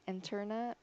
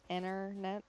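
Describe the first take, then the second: First: The T sound is clearly pronounced. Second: The T sound is dropped. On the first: This is how most other people say it. "They pronounce the T really well" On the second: This is how the speaker's community says it. "we say internet, just internet"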